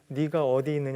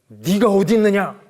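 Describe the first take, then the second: First: The question sounds soft and gentle. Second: The question sounds harsh and stern. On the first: The asker cares about the listener. The speaker calls it right. "너무 부드럽게" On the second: The asker is angry and accusing. The speaker calls it wrong. "이런 것 같아요?"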